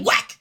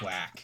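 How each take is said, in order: First: It is said loudly and forcefully. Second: It is said flatly and quietly.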